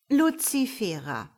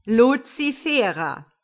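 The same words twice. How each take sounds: First: Measured reproving name call; mild warning, falling at the end. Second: Loud, slow, thundering name call; drawn-out, stern shout, falling; anything but gentle. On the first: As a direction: call her to account, voice falling. God calls the latecomer to account. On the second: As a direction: bellow her name in reproof. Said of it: "alles andere als sanft". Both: Acted.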